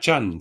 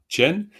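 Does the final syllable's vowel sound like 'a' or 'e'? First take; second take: a; e. First: The final vowel sounds like 'a'. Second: The final vowel sounds like 'e'. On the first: The vowel is left unchanged. The speaker calls it wrong. "Ce serait cha, na, chan si ça ne transformait pas" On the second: The vowel is changed by the preceding consonant. The speaker calls it right. "le na transforme le son a en e"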